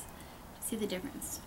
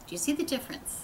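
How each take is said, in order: First: Breathy whispered repeat of the question. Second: Said in the usual way. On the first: Shown as a demonstration. Whispering the question back to viewers. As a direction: drop to a hushed whisper for the echo.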